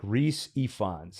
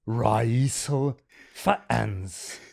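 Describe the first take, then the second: First: The name sounds like 'Reese Ifans'. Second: The name sounds like 'Raisel Fans'. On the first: "if I'm saying that right" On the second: "it goes like Raisel Fan"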